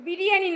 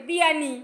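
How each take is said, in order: First: Said in the usual way. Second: বিয়ানি with the "ri" dropped; childish mispronunciation. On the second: Retold or imitated. Adult echoing the child's word, বিয়ানি missing its "ri". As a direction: say বিয়ানি as "bi-ya-ni", like a toddler. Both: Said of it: "এখনো উচ্চারণ হয় না ঠিকঠাক".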